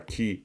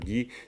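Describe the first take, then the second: First: The particle begins with a voiceless k sound. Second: The particle begins with a voiced g sound.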